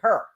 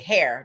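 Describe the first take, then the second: First: The vowel sounds like the one in 'her'. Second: The vowel sounds like the one in 'air'. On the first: "In Saint Louis, they say her" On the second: "they don't say hair"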